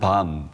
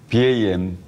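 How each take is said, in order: First: It is one word with an open ah vowel. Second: The three letters are spelled out one by one. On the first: "다른 분들은 어, 밤이라는 표현도 쓰고 있죠" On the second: "비에이엠 또는"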